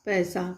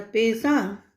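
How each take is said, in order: First: पैसा said as paisa with an open ai; right option read out. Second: पैसा said as pesa with a closed e; wrong option read out. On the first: Teacher reading the right option to the class as paisa. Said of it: "पैसा गलत शब्द है और पैसा सही है". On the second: Teacher reading the wrong option to the class as pesa. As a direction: read this पैसा with a plain e vowel. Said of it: "इस तरह से दिया रहेगा". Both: Shown as a demonstration.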